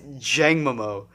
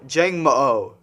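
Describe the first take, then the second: First: The name ends with a repeated 'mo' sound. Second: The name ends with 'mo' followed by 'oh'. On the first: "I think it's Jangmomo" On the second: "Because there's an extra O"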